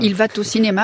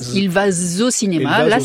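First: A t sound links 'va' to 'au'. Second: A z sound links 'va' to 'au'. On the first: "C'est une liaison avec un T mal à propos" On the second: "Un velours"

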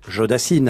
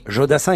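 First: The name ends with a clear 'n' sound. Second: The name ends in a nasal vowel. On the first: The speaker calls it wrong. "et non Jodassine" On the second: The speaker calls it right. "on dit Jodassin"

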